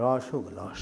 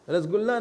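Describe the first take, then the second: First: The first vowel is a rounded 'o' sound. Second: The first vowel is an open 'a' sound. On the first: The speaker calls it right. "ओ ओ है थोड़ा, इसलिए रौशुगुल्ला बोलते हैं" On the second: The speaker calls it wrong. "रसगुल्ला नहीं है हिंदी वाले"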